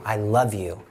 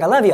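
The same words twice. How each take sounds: First: It is said with heartfelt sincerity. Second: It is said casually, out of habit.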